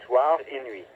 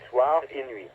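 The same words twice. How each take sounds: The two takes are said the same way.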